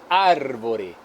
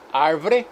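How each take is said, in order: First: The word is said in full, all syllables kept. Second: The word is shortened, dropping a middle vowel. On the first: "ao invés de árvore" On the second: "Redução de palavras como"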